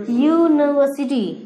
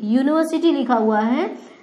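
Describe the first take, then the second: First: यूनिवर्सिटी said slowly, starting with a clear y sound; slow pronunciation demo. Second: Said in the usual way. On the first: Shown as a demonstration. Teacher slowly models यूनिवर्सिटी for the class, y sound first. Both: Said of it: "क्या लिखा हुआ है?".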